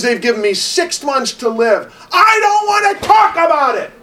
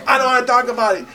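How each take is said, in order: First: Building to a loud, much higher yell; retold angry shout. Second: Quick, higher, sharp brush-off; retold angry brush-off. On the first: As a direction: shout it out, then storm off. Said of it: "He says". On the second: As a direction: snap it off fast and high. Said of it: "he goes".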